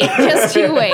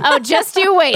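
First: Laughing mock threat. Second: Mock threat. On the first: Repeats the threat while laughing. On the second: Playful mock threat after compliment.

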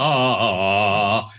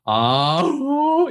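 First: Lower, smooth sung ah; one connected voice. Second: High ah that cracks; voice break demo. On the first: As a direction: glide evenly without a break. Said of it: "you sound like this". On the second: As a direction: flip into a break on the ah. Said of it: "you don't sound like this". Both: Shown as a demonstration.

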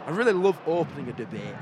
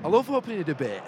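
First: Really leaned on, the line rattled off fast; playful insistence on really; stress on really. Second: Said in the usual way. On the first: Shown as a demonstration. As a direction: push the word really, quicker.

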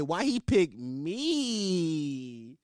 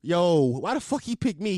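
First: "me" stretched very long in a slow mocking whine; slow line with "me" hugely elongated; stressed-out word. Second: Said in the usual way. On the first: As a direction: drag out "me" for seconds, mimicking him. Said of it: "he stressed out the word". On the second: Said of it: "he didn't just say".

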